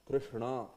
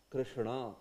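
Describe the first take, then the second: Both takes have the same delivery.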